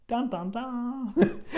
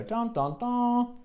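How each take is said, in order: First: Sung, slow, soft, limp dun dun dun; sung, a deflated dramatic sting; sung, not very dramatic music. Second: Softly sung dun dun dun; sung, dramatic music. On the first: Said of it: "not very dramatic music". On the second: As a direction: hum the dramatic sting quietly. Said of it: "you can just go". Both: Shown as a demonstration.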